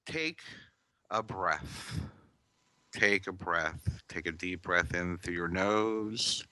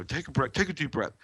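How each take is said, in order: First: Calm demonstration. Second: Sarcastic. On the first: Shown as a demonstration. Teacher showing the real way to breathe, soft and calm. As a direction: guide the breath gently and quietly. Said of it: "This is how you do it". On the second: Retold or imitated. Teacher imitating people who brush off someone upset, sarcastic. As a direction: toss it off like an impatient know-it-all. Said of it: "they say it sarcastically".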